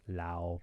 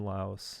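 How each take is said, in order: First: The word ends without any S sound. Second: The word ends with an audible S sound. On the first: The speaker calls it right. "It's probably better" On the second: The speaker calls it wrong. "I shouldn't pronounce the S"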